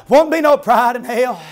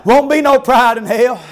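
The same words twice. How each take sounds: The two takes are said the same way.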